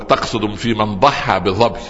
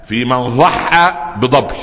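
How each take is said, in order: First: Omar slowly saying "ضحى بظبي" with careful ض and ظ; correcting the sounds. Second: Slow "ضحى بظبي" with the ض softened to ذ and ظ to د; the Bedouin repeating his wrong "ضحى بظبي" unchanged; mispronouncing. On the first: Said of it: "عمر قال له". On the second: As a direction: mangle "ضحى بظبي" slowly, insisting on it. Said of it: "قال". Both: Retold or imitated.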